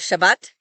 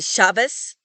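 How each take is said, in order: First: The final sound is a T. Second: The final sound is an S. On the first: This is how most speakers say it. "In most accents, it is always pronounced like a T"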